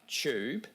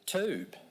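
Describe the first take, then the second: First: It is said the way young Australians say it. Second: It is said the American way.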